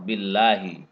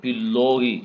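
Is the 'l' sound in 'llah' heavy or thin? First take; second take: thin; heavy. First: The 'l' in 'llah' is light and thin. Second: The 'l' in 'llah' is heavy and full. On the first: The speaker calls it right. "Billah ini bacaan tarkik" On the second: The speaker calls it wrong. "Tidak boleh billahi, enggak boleh"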